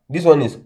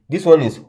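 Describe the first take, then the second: Both takes have the same delivery.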